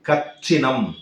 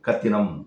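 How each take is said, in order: First: The middle consonant is a hard 'ch' sound. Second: The middle consonant is a soft 't' sound. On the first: The speaker calls it wrong. "அது கொஞ்சம் ஒரு ஹார்டா இருக்கு பாருங்க" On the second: The speaker calls it right. "கச்சினம் என்று சொல்லாமல் கத்தினம் என்று சொல்லுவார்கள்"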